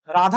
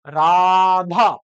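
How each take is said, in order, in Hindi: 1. पहला स्वर छोटा और सीधा बोला जाता है। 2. पहले स्वर को अतिरिक्त समय के लिए खींचा जाता है। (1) "हमने राधा डायरेक्ट नहीं बोला" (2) "एक्स्ट्रा टाइम ले रहा है"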